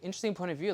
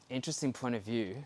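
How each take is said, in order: First: It sounds genuinely curious and open. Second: It sounds judgmental and disapproving. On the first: The speaker truly wants to know more. The speaker calls it right. "it has to be interesting" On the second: The speaker disapproves of the view. The speaker calls it wrong. "because that's judgment"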